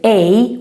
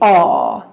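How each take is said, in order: First: The vowel sounds like English 'ay'. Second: The vowel is open, like 'aw'. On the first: The speaker calls it wrong. "in Swedish we don't say a" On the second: The speaker calls it right. "we say aw"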